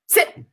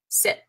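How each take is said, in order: First: It is said as a forceful exclamation. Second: It is said as a calm, flat statement.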